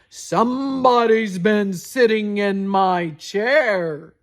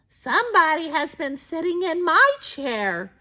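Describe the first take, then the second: First: It is said in a big, rough voice. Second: It is said in a medium-sized voice.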